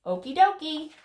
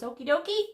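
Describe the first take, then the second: First: "Okie dokie" high and loud, falling at the end; emphatic "Okie dokie" landing downward; answering okie dokie. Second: "okie dokie" high with a rising end; "okie dokie?" asked brightly upward; questioning okie dokie. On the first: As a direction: confirm it, dropping on "dokie". Answer to the phone question. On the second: Asks into phone, answer follows. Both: Acted.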